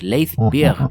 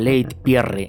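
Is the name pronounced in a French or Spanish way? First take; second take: French; Spanish. First: The name is pronounced the French way. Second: The name is pronounced the Spanish way. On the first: "Parece un nombre francés" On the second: "en español"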